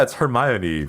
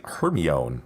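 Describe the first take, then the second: First: Hermione said her-MY-oh-nee, four syllables; correct pronunciation. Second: Hermione said HER-mee-own, three syllables; mispronunciation. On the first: Explaining the right way, Hermione said her-MY-oh-nee. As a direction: say Hermione the proper British way. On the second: Recalling how friends misread it, Hermione said HER-mee-own. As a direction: say Hermione like a kid reading it. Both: Shown as a demonstration. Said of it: "we didn't know it was pronounced Hermione".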